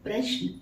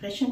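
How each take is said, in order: First: The sh sound is half, with no vowel after it. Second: The sh sound is full, with a vowel after it. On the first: The speaker calls it right. "उच्चारण है ये" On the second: The speaker calls it wrong. "प्रश्न नहीं है"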